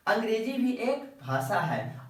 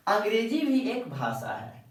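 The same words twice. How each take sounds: The two takes are said the same way.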